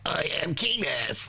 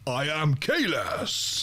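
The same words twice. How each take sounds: First: The voice is light, not deep or booming. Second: The voice is deep, loud and booming. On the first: This is how the character actually sounded. "it's more like" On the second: This is how the character was expected to sound. "thunderous uh, baritone that I thought Kahless would have"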